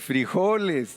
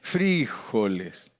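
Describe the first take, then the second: First: The stress is on the o syllable. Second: The stress is on the i syllable.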